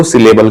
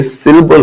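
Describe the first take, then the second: First: "सिलेबल" with a full "lay" in the middle; mispronounced "syllable". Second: "सिलेबल" said slowly as SIL-bul; correct "syllable". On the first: Retold or imitated. Teacher mimicking some people's error, "सिलेबल" as si-lay-bul. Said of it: "कुछ लोग इसको सिलेबल कहते हैं". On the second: Shown as a demonstration. Teacher giving the correct word, "सिलेबल" as SIL-bul. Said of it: "इस word को ही गलत तरीके से प्रोनाउंस".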